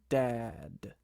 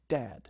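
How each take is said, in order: First: The word is said slowly and drawn out. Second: The word is said at a normal speed.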